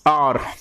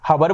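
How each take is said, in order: First: The word starts directly with a vowel. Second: The word starts with an h sound. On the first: The speaker calls it right. "सीधा आर" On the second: The speaker calls it wrong. "हबर बोलते हैं बोलने में, लेकिन गलत बोलते हैं"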